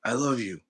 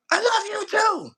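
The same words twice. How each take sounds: First: Said in the usual way. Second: High, loud I love you too; mock loud reply. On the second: Shown as a demonstration. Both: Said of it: "so much passion and, and calmness".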